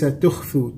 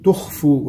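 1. صوت الخاء خفيف ورفيع. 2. صوت الخاء ثقيل وممتلئ. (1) "وليس تخفوا" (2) "الخاء فيها تفخيم، فنقول تخفوا"

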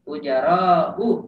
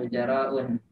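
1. Kata itu berakhir dengan vokal, tidak ada n di akhir. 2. Kata itu berakhir dengan bunyi n tambahan. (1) "Itu enggak ada tanwinnya juga"

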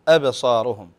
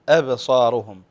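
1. الهمزة الأولى تُنطق خفيفة ورقيقة. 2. الهمزة الأولى تُنطق خفيفة ورقيقة.

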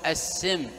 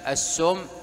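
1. الحركة الأولى هي صوت i. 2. الحركة الأولى هي صوت u. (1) "وبالكسر" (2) "وبالضم"

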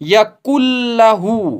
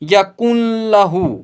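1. न की आवाज ल में पूरी तरह मिल जाती है। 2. न की आवाज ल से पहले सुनाई देती है। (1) "जैसे हम पढ़ेंगे" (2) "न कि"

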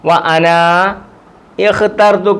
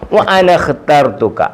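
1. അലിഫുകൾ ഉച്ചരിക്കുന്നു, അതുകൊണ്ട് രണ്ട് വേറെ പദങ്ങളാകുന്നു. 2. അലിഫുകൾ ഉച്ചരിക്കില്ല, അതുകൊണ്ട് പദങ്ങൾ ചേർന്ന് ഒന്നാകുന്നു. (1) "രണ്ട് പദമായിട്ട് വായിക്കുമ്പം" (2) "രണ്ട് പദങ്ങളും കൂടെ ചേർന്ന് വന്നപ്പോൾ ഈ രണ്ട് അലിഫിനും ഉച്ചാരണം നഷ്ടപ്പെട്ടു"

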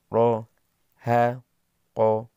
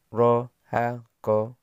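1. Suku katanya dibaca lambat. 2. Suku katanya dibaca cepat. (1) "yang pertama pelan" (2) "Dibaca cepat"

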